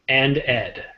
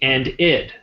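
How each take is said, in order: First: The ending is pronounced with an 'ed' sound. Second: The ending is pronounced with an 'id' sound. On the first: The speaker calls it wrong. "not and ed" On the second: The speaker calls it right. "it would be and id"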